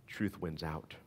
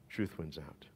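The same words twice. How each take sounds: The two takes are said the same way.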